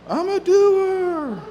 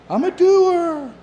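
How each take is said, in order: The two takes are said the same way.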